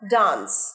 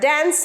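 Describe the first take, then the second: First: The vowel is an open sound like 'father'. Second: The vowel is a front sound like 'cat'. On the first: The speaker calls it right. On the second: The speaker calls it wrong. "ড্যান্স নয়, D এটা এ উচ্চারণ হবে না"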